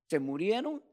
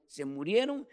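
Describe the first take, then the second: No difference in how they are said.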